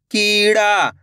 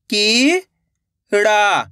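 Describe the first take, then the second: First: कीड़ा joined up, both vowels held; blended whole word. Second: कीड़ा split as की, long pause, ड़ा; syllable by syllable. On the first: Teacher shows learners the result, कीड़ा blended into one word. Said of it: "तो मिलके बन जाएगा". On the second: Teacher shows direct matra reading, कीड़ा broken into held syllables. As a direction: sound out कीड़ा in two drawn-out pieces. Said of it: "direct मात्रा का उच्चारण करके पढ़ेंगे". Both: Shown as a demonstration.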